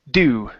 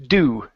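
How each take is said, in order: No difference in how they are said.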